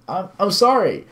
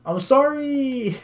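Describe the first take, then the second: First: High, stammered tearful apology; choked by tears. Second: Very high, long drawn-out wail; wailed apology. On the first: Crying visitor apologises to scolding woman, choked by tears. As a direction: act close to crying. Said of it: "My voice was choked by tears". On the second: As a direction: cry it out as if meaning it. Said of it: "Say it like you mean it". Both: Acted.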